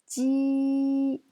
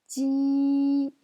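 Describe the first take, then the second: First: It is said with the first tone. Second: It is said with the first tone.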